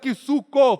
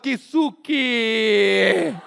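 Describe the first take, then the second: First: The name ends with an 'oo' vowel sound. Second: The name ends with an 'ee' vowel sound. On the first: This is how most people said the name. "pobre que é pobre não falava Kisuko" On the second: This is how really poor people said the name. "falava Kisuki"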